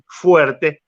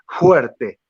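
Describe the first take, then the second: First: The f is a plain lip-and-teeth f. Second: The f is a soft, blown breathy sound. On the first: "no dicen fuerte" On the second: "lo dicen una F soplada"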